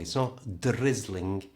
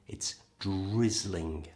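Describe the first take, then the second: First: Slow drizzling with the R made with the tongue; wrong R. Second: Slow drizzling with the R made by pushing the lips forward. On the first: Teacher showing the wrong R sound. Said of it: "made with the lips, not the tongue". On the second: Teacher showing the right lip R. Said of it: "Lips forward". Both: Shown as a demonstration.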